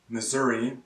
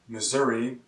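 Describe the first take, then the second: The two takes are said the same way.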